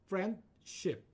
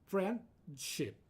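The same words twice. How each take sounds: Both takes have the same delivery.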